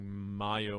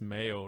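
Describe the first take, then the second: First: The word is said with a German accent. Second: The word is said with an American accent. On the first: The speaker calls it wrong. "I'm saying mayo with a German accent" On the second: The speaker calls it right. "I think it's mayo, right? In American"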